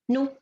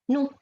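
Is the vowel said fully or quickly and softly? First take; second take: quickly softly; quickly softly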